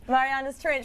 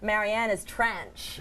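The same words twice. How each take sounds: First: It is said in the speaker's usual accent. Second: It is said in a put-on Canadian accent. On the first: "the way you say Mariana's Trench" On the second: "try a Canadian accent?"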